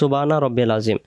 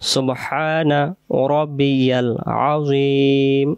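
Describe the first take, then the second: First: The h sound in the first word is dropped. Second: The h sound in the first word is pronounced. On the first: The speaker calls it wrong. "আমরা অনেকে বলি সুবানা রব্বিল আজিম, হা অক্ষরটা বাদ চলে যায়" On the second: The speaker calls it right. "আমরা সহি করে পড়ব"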